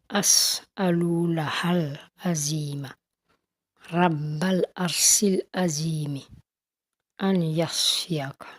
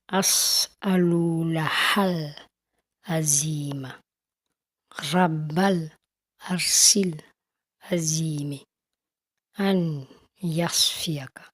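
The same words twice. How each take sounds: First: It is recited at a normal pace. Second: It is recited as slowly as possible.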